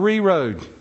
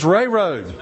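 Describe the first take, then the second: First: The first word sounds like "ree". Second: The first word sounds like "ray". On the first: The speaker calls it wrong. "REA Road in Charlotte is not Ree Road" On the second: The speaker calls it right. "It's Ray Road"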